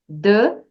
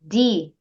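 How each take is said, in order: First: The word ends with a short 'uh' vowel. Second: The word ends with a long 'ee' vowel. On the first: The speaker calls it wrong. "Em vez de você dizer the" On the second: The speaker calls it right. "você diz the"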